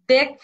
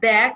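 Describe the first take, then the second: First: দেখ with closed e, "dekh"; wrong pronunciation. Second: দেখ with open e, "dækh"; correct pronunciation. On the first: Teacher showing the wrong দেখ. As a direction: say দেখ with a tight e. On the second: Teacher correcting with the right দেখ. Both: Shown as a demonstration. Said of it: "দেখ হবে না".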